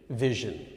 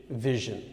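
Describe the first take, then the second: The two takes are said the same way.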